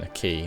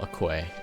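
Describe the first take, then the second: First: The word sounds like 'key', with no w. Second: The word sounds like 'kway', with a w. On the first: The speaker calls it right. "That's that's the correct pronunciation" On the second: The speaker calls it wrong.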